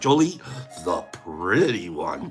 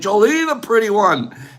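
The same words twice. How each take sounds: First: The phrase is said more slowly. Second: The phrase is said quickly. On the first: The speaker calls it right. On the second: The speaker calls it wrong.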